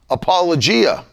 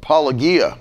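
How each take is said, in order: First: The word is said with an English pronunciation. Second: The word is said with a Greek pronunciation.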